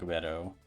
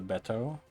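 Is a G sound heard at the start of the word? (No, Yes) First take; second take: Yes; No. First: The word starts with a G sound. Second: The word starts without a G sound.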